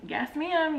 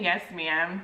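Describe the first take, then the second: First: Clipped respectful yes ma'am; "Yes, ma'am" held back and polite; polite restraint. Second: Said in the usual way. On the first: Retold or imitated. Mover keeps calm with the agent, restrained polite voice. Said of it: "trying to refrain myself and be respectful". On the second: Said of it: "I'm not saying it, like, as derogatory".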